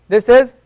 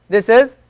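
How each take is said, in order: The two takes are said the same way.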